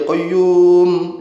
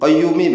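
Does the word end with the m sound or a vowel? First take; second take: m sound; vowel. First: The word ends on the m, no vowel. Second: The final m is followed by an i vowel. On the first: The phrase is recited once and stopped on. "itu kalau sekali mimnya disukun" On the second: The phrase is being recited repeatedly without stopping. "minnya dibaca mi, qayyumi begitu"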